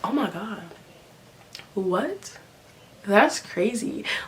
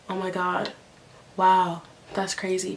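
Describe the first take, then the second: First: It is said excitedly, with lots of energy. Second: It is said flatly, with little energy.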